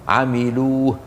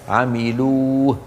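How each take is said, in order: The two takes are said the same way.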